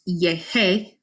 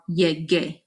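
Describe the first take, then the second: First: The middle consonant is an h sound. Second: The middle consonant is a g sound. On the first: The speaker calls it wrong. "which is pronounced yehe with a h sound" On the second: The speaker calls it right. "now makes the g sound"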